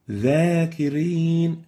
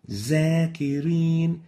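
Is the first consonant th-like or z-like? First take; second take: th-like; z-like. First: The first consonant sounds like a voiced th. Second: The first consonant sounds like a z. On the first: The speaker calls it right. "the right way of pronouncing it is like this" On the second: The speaker calls it wrong.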